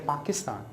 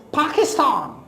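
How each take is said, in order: First: "Pakistan" with no puff of air on the P; soft "Pakistan", its P close to a b; unaspirated p. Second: "Pakistan" with a forceful puff on the P; "Pakistan" begun with more breath, P-hakistan; aspirated p. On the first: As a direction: say "Pakistan" without aspirating the P. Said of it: "because we do not know about". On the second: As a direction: aspirate the first sound of "Pakistan". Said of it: "it should be pronounced with more force". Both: Shown as a demonstration.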